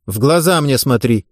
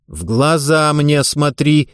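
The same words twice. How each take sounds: First: Said in the usual way. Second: Slow, deliberate stern order; a coach's angry, measured command. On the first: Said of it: "повторила". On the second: Acted. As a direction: lay down the law, slowly. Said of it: "сердито и властно повторила".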